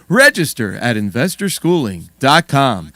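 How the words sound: It is said in a put-on announcer voice.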